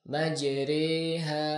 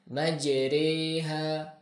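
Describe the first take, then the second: Both takes have the same delivery.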